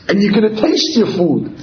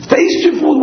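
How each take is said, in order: First: Said in the usual way. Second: Taste your food? asked much higher in shock; the fetus can't believe food has taste; incredulous. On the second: Acted. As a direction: taste your food? in a high, disbelieving squeak. Fetus answers adult in disbelief.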